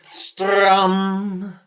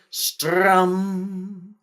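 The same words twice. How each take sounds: First: It is said somewhat loudly. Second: It is said at moderate volume.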